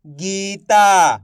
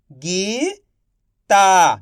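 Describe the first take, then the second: First: Said in the usual way. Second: Slow stretched reading. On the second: Shown as a demonstration. Teacher to pupils, slowly stretched. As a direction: draw Gita out slowly. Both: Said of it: "आप इस तरीके से".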